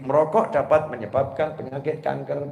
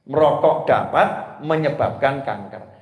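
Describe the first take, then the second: First: It is read straight through without a break. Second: There is a break after 'merokok dapat'.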